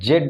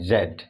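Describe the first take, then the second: First: It begins with a 'j' sound. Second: It begins with a 'z' sound. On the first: The speaker calls it wrong. "जेड नहीं" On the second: The speaker calls it right. "बल्कि क्या कहते हैं जेड"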